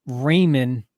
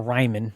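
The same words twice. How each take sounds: First: "Raymond" with first syllable like "ray"; alternate pronunciation. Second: "Ryman" with first syllable like "rye"; alternate pronunciation. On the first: Unsure podcaster offering one way to say a player's name, "Raymond" as RAY-mund. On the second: Unsure podcaster offering the other way to say a player's name, "Ryman" as RYE-mun. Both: Shown as a demonstration. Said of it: "however you say it".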